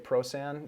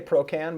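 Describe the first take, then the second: First: The middle consonant is a soft s sound. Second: The middle consonant is a hard k sound. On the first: This is an acceptable alternative pronunciation. "if you want to say Prosan, you can do that as well" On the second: This is the speaker's own usual pronunciation. "I say Procan"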